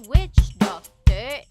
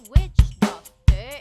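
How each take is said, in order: The two takes are said the same way.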